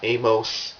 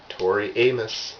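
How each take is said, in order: First: The name is said not rhyming with 'anus'. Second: The name is said to rhyme with 'anus'. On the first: The speaker calls it wrong. "It's not Amos" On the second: The speaker calls it right. "like anus"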